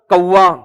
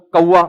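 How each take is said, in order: First: A touch impatient; mildly irritated reply; slightly changed tone. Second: Said in the usual way. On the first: Retold or imitated. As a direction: son getting a little curt. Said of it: "تھوڑا سا بیٹے کا لہجہ کیا ہو رہا ہے؟ Change.". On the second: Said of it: "بیٹے نے بول دیا".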